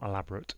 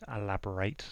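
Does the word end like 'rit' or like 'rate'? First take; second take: rit; rate. First: The last syllable is weak, like 'rit'. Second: The last syllable is full, like 'rate'. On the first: Something is detailed or complicated. The speaker calls it wrong. "it's not elaborate" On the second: Someone should expand on something. The speaker calls it right. "So elaborate on that. Can you expand on that?"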